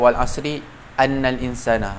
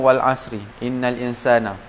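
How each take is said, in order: First: The particle begins with an 'a' vowel. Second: The particle begins with an 'i' vowel. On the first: The speaker calls it wrong. "tak boleh lah cakap" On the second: The speaker calls it right.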